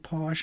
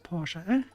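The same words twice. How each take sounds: First: The name is said the English way. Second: The name is said a non-English way. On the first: "in English you say Porsche" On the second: "instead of Porsche"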